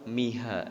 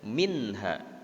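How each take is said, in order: First: The n sound is dropped entirely. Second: The n sound is pronounced clearly. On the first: The speaker calls it wrong. "Tidak juga langsung miha" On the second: The speaker calls it right. "nun matinya di situ terbaca jel, jelas"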